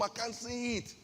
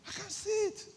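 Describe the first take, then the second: First: Said in the usual way. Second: Pitched way up, mock complaint; high exasperated repeat. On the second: Shown as a demonstration. Preacher teasing the congregation, high mock complaint. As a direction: squeak it out in disbelief. Repeats the line, much higher.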